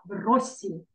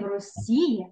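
First: The stress falls on the first syllable. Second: The stress falls on the last syllable. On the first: The speaker calls it right. "Наголос на передостатній" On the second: The speaker calls it wrong. "Не в Росії"

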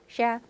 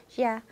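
No difference in how they are said.

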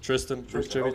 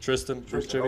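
First: The name is said with English pronunciation. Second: The name is said with English pronunciation.

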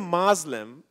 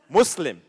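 First: The middle consonant is a buzzing z sound. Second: The middle consonant is a hissing s sound. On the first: The speaker calls it wrong. "some people find it derogatory" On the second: The speaker calls it right. "S with an S, no Z"

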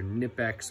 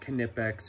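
First: The K at the start is silent. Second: The K at the start is sounded.

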